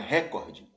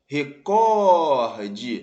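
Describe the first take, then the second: First: The stress is on the first syllable. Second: The stress is on the second syllable. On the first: The speaker calls it wrong. "não é" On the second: The speaker calls it right. "As palavras rubrica e recorde são paroxítonas"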